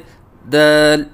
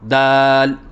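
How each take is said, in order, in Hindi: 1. यह शब्द मुँह बंद रखकर बोला जाता है। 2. यह शब्द मुँह खोलकर बोला जाता है। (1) "बच्चा जो गलती कर रहा था उसी को दोहराएं" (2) "पहले सही अदायगी करें"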